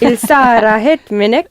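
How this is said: It is said in an angry tone.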